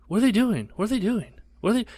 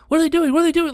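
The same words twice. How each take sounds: First: High anxious mom voice. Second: Much higher, louder frightened squeal; scared mom. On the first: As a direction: mimic mom's fretful repeated question high. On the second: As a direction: screech it like a terrified mom. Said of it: "she wasn't doing the". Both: Retold or imitated.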